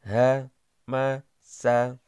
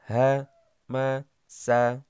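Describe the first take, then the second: No difference in how they are said.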